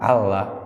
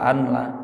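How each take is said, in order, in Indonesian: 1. Bunyi n menyatu menjadi bunyi l ganda. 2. Bunyi n diucapkan dengan jelas sebelum l. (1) "itu otomatis dibacanya Allah" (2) "kalau annya mungkula yang dibaca anla"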